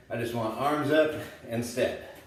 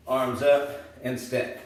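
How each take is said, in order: First: Said in the usual way. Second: "Arms up and step" said slowly, stretched out as a count-in; slow coaching cue. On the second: Shown as a demonstration. Trainer cueing beginners at home, slow and stretched. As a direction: call the move out slowly for beginners.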